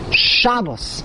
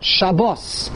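First: The stress is on the first syllable. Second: The stress is on the last syllable. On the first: This is the Yiddish way of saying it. The speaker calls it right. "the emphasis is on the beginning" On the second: This is the Hebrew way of saying it. The speaker calls it wrong. "not Shabbos"

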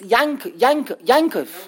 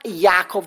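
First: The middle has an n-like sound. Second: The middle has no n-like sound. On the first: The speaker calls it right. "There's an N, the English letter N should be pronounced" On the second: The speaker calls it wrong. "it's not Yaakov"

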